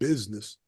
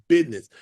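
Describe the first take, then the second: First: It is said with the usual z sound. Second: It is said like 'bidness', with a d sound. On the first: The speaker calls it wrong. "not business" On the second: The speaker calls it right. "you gotta say it right. Business. ... B I D N E S S"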